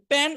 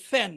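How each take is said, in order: First: প্যান said with a plain Bangla প; wrong p sound. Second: ফ্যান with an aspirated Bangla ফ; wrong ph sound. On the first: Teacher showing the wrong Bangla spelling. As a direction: say প্যান with a hard p, not f. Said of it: "লিখবেন প দিয়ে". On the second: Teacher showing the other wrong spelling. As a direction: say ফ্যান with Bangla ফ, not English f. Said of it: "দুইটাই ভুল উচ্চারণ". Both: Shown as a demonstration.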